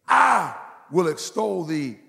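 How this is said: The stress is on the word I.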